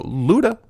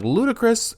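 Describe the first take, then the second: First: Luda called short and sharp, higher, rising; calling the dog. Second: Calling the dog. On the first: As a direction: snap the short name out to grab attention. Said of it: "If I go". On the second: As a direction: call the dog by its long name in a high sing-song. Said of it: "If I'm like". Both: Shown as a demonstration.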